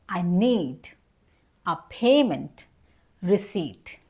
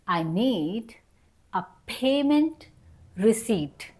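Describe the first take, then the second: No difference in how they are said.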